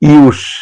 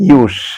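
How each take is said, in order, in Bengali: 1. শব্দটি শিসের মতো s ধ্বনি দিয়ে শেষ হয়। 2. শব্দটি শিসের মতো s ধ্বনি দিয়ে শেষ হয়।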